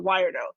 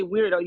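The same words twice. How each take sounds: First: "weirdo" said as WHY-er-doh, reading the misspelling; misspelled reading. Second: Said in the usual way. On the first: Shown as a demonstration. Mocking a rival's misspelling, "weirdo" read as WHY-er-doh. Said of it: "You put weirdo". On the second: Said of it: "you wanted to say weirdo".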